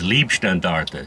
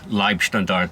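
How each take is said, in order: First: The first syllable sounds like 'lee'. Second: The first syllable sounds like 'lie'. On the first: It means love regiment. The speaker calls it wrong. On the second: It means bodyguard regiment. The speaker calls it right.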